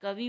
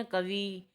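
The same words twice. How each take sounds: First: Said in the usual way. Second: कवि with the final i held long, as kavee; कवि said as "ka-vee"; long final vowel. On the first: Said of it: "लिखते उ". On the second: Shown as a demonstration. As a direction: stretch the last vowel of कवि. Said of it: "बड़ा ऊ".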